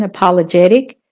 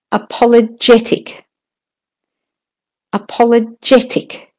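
First: American "apologetic" with flapped t; American pronunciation. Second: "apologetic" with a higher JET, crisp t; stress on JET. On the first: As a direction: say "apologetic" the American way, stressing JET. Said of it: "It's the American". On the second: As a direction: lean on the fourth syllable of "apologetic". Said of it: "still the jet is stressed". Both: Shown as a demonstration.

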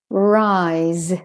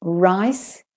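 First: "rise" long, with buzzing z; teacher's drawn-out "rise" with final z; voiced Z ending. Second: "Rice" short, with hissed s; teacher's clear "Rice" with final s; voiceless S ending. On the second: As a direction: end "Rice" on an unvoiced s. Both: Shown as a demonstration. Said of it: "when the S says S or the S says Z".

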